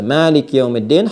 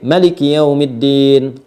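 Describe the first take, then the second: First: The first vowel of Maliki is drawn out long. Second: The first vowel of Maliki is kept short. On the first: This follows one recognized reading tradition. "Hafs an Asim" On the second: This follows another recognized reading tradition. "bisa dibaca pendek"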